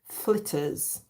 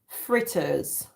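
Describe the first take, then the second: First: It is said in a Jamaican accent. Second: It is said in a standard English accent.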